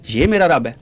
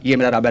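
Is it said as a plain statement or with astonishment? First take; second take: astonishment; plain statement. First: It is said with astonishment and scorn. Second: It is said as a plain, sincere statement.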